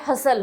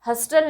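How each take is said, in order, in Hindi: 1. बीच में t की आवाज़ साइलेंट होती है। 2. बीच में t की आवाज़ बोली जाती है। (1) "हसल होता है" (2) "हस्टल नहीं होता है"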